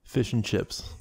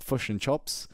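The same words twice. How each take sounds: First: A natural New Zealand accent; own New Zealand accent. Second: Put-on "chops" with the vowel pulled back, New Zealand accent; imitating a New Zealander, New Zealand accent; mock New Zealand accent. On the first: Shown as a demonstration. Asked by a friend to say it, New Zealand accent. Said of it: "say fish and chips". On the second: Mocking how New Zealanders order food, New Zealand accent. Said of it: "people like".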